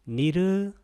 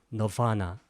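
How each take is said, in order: First: It is said with a clear r, like Sanskrit. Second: It is said with an American English accent. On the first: "산스크리트로는 뭐라고 하냐면 니르바나" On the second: "미국 애들은 이것을 뭐라고 발음하냐면 강세가 뒤에 있기 때문에 너바나"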